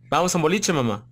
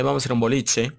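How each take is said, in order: First: Buenos Aires lilt, rising on "boliche"; playful porteño accent. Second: Said in the usual way. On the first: Retold or imitated. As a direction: toss it off like a porteño inviting a friend out. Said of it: "me adoro el, el acento porteño".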